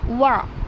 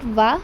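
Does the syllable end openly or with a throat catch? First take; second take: throat catch; openly. First: The syllable ends with a catch in the throat. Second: The syllable ends openly with no throat sound. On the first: The speaker calls it right. "recite the uh, wow with ain jazm" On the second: The speaker calls it wrong. "Not va"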